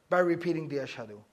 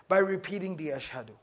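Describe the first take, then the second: No difference in how they are said.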